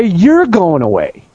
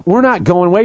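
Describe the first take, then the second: First: "You're" punched, the rest slow and falling; stress on You're. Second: "not" stressed in a firm refusal. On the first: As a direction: hit "You're", then draw out the rest. Turns the statement on opponents. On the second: Contrasts two sides in quoted defiance. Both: Retold or imitated.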